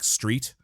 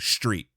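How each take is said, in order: First: The s sounds like a plain s. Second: Philadelphia accent, the s sounds like sh.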